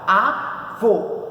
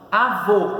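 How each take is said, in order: First: Avô as two separate syllables, a, vô, with a gap; split into syllables. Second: Said in the usual way. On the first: Shown as a demonstration. Teacher showing how to separate it, Avô syllable by syllable. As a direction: break Avô cleanly in two. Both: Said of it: "como que se separa?".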